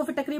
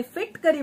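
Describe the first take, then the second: First: फिटकरी said as fi-TAK-ree; her former pronunciation. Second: फिटकरी said as FIT-ka-ree; others' pronunciation. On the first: Host recalling her own habit, फिटकरी pronounced "fi-tak-ree". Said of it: "मैं भी इसको फिटकरी बोलती थी". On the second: Host quoting what many people say, फिटकरी pronounced "fit-ka-ree". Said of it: "लेकिन बहुत लोग बोले". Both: Shown as a demonstration.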